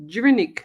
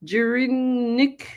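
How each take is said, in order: First: "Jirinik" in one quick piece, falling at the end; "Jirinik" tried as a whole word, ending down; second pronunciation attempt. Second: "Jirinik" drawn out slowly with a rising end; "Jirinik" stretched, tentative and rising at the end; unsure sounding-out. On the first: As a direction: say "Jirinik" louder, run together, with a falling tune. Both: Real, not acted. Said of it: "no idea how to pronounce that".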